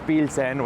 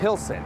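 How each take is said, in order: First: The name is said with a Spanish accent. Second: The name is said with an English accent. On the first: Older Mexican immigrants say it this way. "Pilsen with that Spanish accent"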